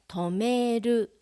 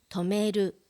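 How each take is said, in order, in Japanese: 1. その単語はゆっくり丁寧に言われています。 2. その単語は自然な速さで言われています。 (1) "まず単語をゆっくり読みます" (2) "ナチュラルスピードで読みます"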